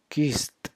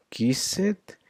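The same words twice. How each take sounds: First: "kissed" in one syllable, kist, falling. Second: "Kissed" in two syllables, kiss-ed, higher; ED as separate syllable. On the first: Teacher demonstrating the T sound, "kissed" as kist. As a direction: close "kissed" on a T. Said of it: "a T, a T sound". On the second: Teacher contrasting the spelling with the sound, "Kissed" as kiss-ed. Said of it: "becomes like a T, a T sound". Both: Shown as a demonstration.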